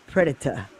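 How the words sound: The word is said with a British pronunciation. "Predator is British"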